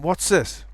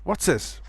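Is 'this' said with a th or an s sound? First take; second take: s; s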